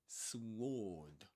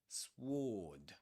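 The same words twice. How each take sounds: The two takes are said the same way.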